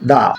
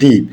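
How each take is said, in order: First: The vowel is a short 'uh' sound. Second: The vowel is a long 'ee' sound. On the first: The next word begins with a consonant. "Consonant পাই, তাহলে আমরা উচ্চারণ করব কি? দা" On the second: The next word begins with a vowel. "Vowel পাই, তাহলে আমরা উচ্চারণ করব দি"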